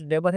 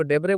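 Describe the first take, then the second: First: डेबर with no final vowel, de-bar; डेबर, the two-syllable form ending in r; short form debar. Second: डेबरे with a final e, de-be-re; डेबरे, the three-syllable Latin form ending in e; Latin pronunciation debere. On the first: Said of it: "कुछ डेबर है". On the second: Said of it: "कुछ लोग इसको डेबरे बोलते हैं". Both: Shown as a demonstration.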